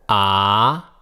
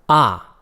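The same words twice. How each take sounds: First: The syllable carries the second tone. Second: The syllable carries the fourth tone.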